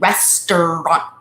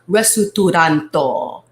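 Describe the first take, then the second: First: It is said in a plain English accent. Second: It is said Japanese-style with vowels between consonants.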